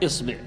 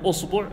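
First: The first vowel is i. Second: The first vowel is u. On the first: "وتكسر الهمزة فتقول" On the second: "تضم الهمزة"

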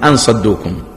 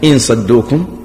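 First: The first word begins with an 'a' vowel. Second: The first word begins with an 'i' vowel. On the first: It gives a reason. "بفتحها" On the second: It states a condition. "بكسر الهمزة"

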